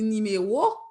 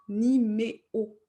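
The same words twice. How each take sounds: First: The last two vowels are joined by a w-glide. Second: The last two vowels are said as separate sounds. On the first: The speaker calls it right. "On dit numéro, donc on va coller, joindre ces deux voyelles avec une demi-voyelle" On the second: The speaker calls it wrong. "on ne dit pas numéro"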